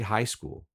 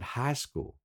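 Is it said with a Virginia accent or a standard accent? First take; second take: standard; Virginia. First: It is said with a standard American accent. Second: It is said with a local Virginia accent.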